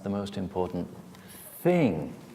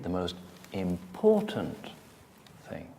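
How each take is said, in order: First: The word 'thing' carries the main stress. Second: The word 'important' carries the main stress. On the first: It is a thing rather than a person. "I mean thing, rather than person" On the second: The importance of the element matters most. "I'm talking about the importance of that element"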